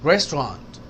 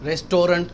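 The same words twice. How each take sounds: First: The middle syllable is dropped, said quickly. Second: Every syllable is fully pronounced. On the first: The speaker calls it right. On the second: The speaker calls it wrong.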